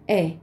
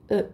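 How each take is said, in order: First: E said as an open "eh", as in "bet". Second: E said as a closed, rounded French vowel. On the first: Teacher showing learners what French E is not, open vowel. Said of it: "Não é E". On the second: Teacher showing learners the French E, closed pronunciation. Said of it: "é um E fechadinho". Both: Shown as a demonstration.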